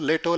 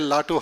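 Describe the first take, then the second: First: The name is said with an 'e' vowel. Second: The name is said with an open 'a' vowel. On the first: The speaker could not say the name properly. The speaker calls it wrong. "He could not tell Latu also" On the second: This is the name as it should be said. The speaker calls it right. "He could not tell Latu also"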